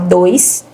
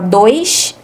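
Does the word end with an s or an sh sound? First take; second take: s; sh. First: The final s is a hissing s sound. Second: The final s is a hushing sh sound. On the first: This is how most of Brazil says it. "Igual aqui em Minas a gente fala" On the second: This is how some regions, like Rio, say it. "então vai ficar com som de C H"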